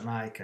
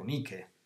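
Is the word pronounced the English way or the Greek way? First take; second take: English; Greek. First: The word is said with an English pronunciation. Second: The word is said with a Greek pronunciation. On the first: It is the name of a sports brand. "si pronuncia Nike all'inglese" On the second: It is the Greek word for victory. "la traslitterazione testuale del greco Nike"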